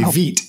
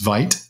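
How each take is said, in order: First: The vowel sounds like 'ee'. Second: The vowel sounds like 'eye'. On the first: The speaker calls it right. "which is really Veet" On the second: The speaker calls it wrong. "the way that I pronounce Vite"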